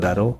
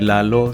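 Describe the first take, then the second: First: The name is said with an R-like sound. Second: The name is said with clear L sounds. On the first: This is how Japanese speakers adapt the name. "en vez de una L, eh, el recurso es eh, una, una R" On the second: This is the original Spanish name. "mi nombre, Lalo"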